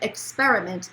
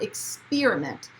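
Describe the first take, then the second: First: The second syllable has an 'er' vowel. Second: The second syllable has an 'ee' vowel. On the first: The speaker calls it right. "So it said experiment" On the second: The speaker calls it wrong. "not experiment. Experiment would suggest that the I would be first"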